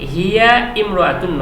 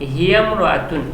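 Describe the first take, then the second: First: The i vowel before mraatun is pronounced separately. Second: The i vowel is dropped, linking the words. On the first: The speaker calls it wrong. "হিয়া ইমরাতুন নয়" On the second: The speaker calls it right. "তখন বলতে হবে হিয়ামরাতুন"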